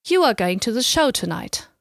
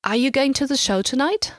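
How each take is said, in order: First: "tonight" drops at the end as a statement; no question lift on "tonight"; statement intonation. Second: "tonight" lifts high at the end as a question; rising question intonation. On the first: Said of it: "Compare this to the statement". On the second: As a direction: ask it, pitch climbing sharply on "tonight". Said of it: "accompanied by a rising intonation at the end". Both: Shown as a demonstration.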